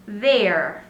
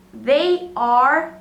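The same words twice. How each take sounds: First: They're as one falling syllable; short contracted they're; contraction. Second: They are as two words, rising; careful full They are; full form. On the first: Teacher repeats the contraction they're. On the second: Teacher repeats They are for students. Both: Shown as a demonstration. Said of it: "Repetindo aí, então, as pronúncias".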